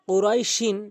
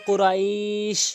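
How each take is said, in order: First: The word is said in full, ending in -in. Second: The word stops on sh, middle vowel lengthened. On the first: "আমি পূর্ণ শব্দটি বলেছি" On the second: "আমি ওয়াকফ করলে এখানে এক আলিফ টেনে পড়ব"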